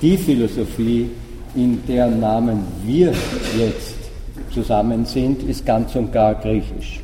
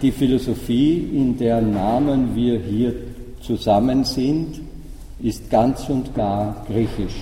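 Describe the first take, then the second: First: The opening word 'die' is stressed. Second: The opening word 'die' is unstressed. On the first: Only the particular philosophy of this gathering is Greek. "durch die Wortbetonung klar" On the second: All philosophy in general is thoroughly Greek. "so ausgesprochen, den Satz, wie Gadamer ihn wahrscheinlich gemeint hat"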